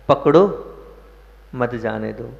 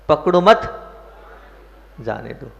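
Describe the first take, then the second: First: The break comes right after 'pakdo'. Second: The break comes right after 'mat'. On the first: Hold on; do not let it go. "संसार मार्ग कहता है" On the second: Do not hold on; let it go. "धर्म मार्ग और मोक्ष मार्ग और अध्यात्म मार्ग क्या कहता है?"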